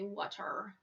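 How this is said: The final r sound is clearly pronounced. "in Ireland there is or"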